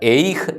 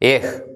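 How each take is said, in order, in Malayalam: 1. h ക്ക് മുമ്പ് y glide കേൾക്കുന്നു. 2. h ക്ക് മുമ്പ് y ഗ്ലൈഡ് കേൾക്കുന്നില്ല. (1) "എയ്ഹ് അല്ല" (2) "ആ യൂദ് ഉച്ചരിക്കുന്നില്ല"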